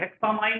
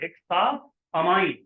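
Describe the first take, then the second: First: The two parts run together with no break. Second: A short break separates hexa from ammine. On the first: The speaker calls it wrong. "हेक्सामाइन ऐसे नहीं पढ़े" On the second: The speaker calls it right. "थोड़ा सा अपने आप को रोकेंगे"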